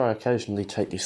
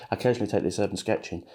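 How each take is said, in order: First: Talking with a brush between teeth; words muffled round a brush held in mouth; mouth full. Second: Said in the usual way. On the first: Real, not acted. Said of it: "I've got a brush in my mouth and I'm talking". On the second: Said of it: "sorry, I've got a brush in my mouth".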